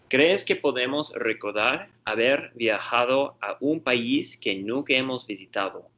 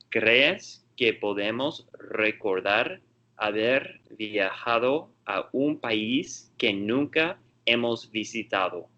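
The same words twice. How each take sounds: First: It is read at a normal, quicker pace. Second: It is read at a slower pace.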